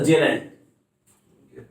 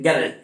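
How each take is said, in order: First: The name begins with a soft J sound. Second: The name begins with a hard G sound. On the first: The speaker calls it right. "Not sir, जेराल्ड" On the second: The speaker calls it wrong. "गैराल्ड नहीं बोलेंगे क्योंकि जी वहां sound कर रहा है"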